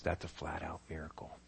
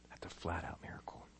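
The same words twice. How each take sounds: First: Hushed whisper of awe. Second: Even softer whisper of awe. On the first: Preacher whispering the miracle to the congregation. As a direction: breathe it out in awe. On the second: Preacher whispering again to the congregation. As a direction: barely breathe the words. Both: Shown as a demonstration. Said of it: "repeated whispered".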